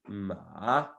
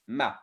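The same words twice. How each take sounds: First: The pitch rises like a question. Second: The pitch drops sharply and cuts off. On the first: "it's like questioning" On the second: "It's like you cut the word"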